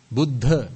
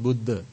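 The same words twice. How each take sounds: First: "Buddha" with a strong aspirated dh; correct "Buddha". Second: "Buddha" with a plain, unaspirated d; mispronounced "Buddha". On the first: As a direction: punch the breathy dh in "Buddha". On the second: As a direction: drop the breath after d in "Buddha". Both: Shown as a demonstration. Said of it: "not Buddha".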